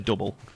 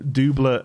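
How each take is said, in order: First: The word is pronounced with an English sound. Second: The word is pronounced with a French sound. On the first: "an English person would say double" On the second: "the French is the, the pronunciation for double entendre"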